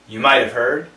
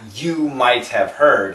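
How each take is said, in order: First: The words are run together, with the h dropped. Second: Each word is said fully, with the h sounded. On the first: The speaker calls it right. "very short... there is no H... Flap T sounded like a D" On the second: The speaker calls it wrong. "it's not you might have heard"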